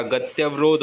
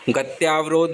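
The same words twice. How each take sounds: First: गत्यवरोध said with a short a after ty; correct pronunciation. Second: गत्यावरोध said with a long aa after ty; wrong pronunciation. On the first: Teacher correcting to गत्यवरोध, pronounced "gatyavrodh". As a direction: keep the tya short in गत्यवरोध. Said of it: "गत्यवरोध होता है". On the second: Teacher showing the mistaken गत्यावरोध, said as "gatyaavrodh". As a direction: stretch the tyaa in गत्यावरोध. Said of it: "गत्यावरोध नहीं होता". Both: Shown as a demonstration.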